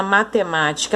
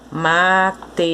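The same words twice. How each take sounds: First: Said in the usual way. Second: Syllable by syllable. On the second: Shown as a demonstration. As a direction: say "Matemática" as ma, te, má, ti, ca, pausing between them. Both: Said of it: "ela está separada em sílabas".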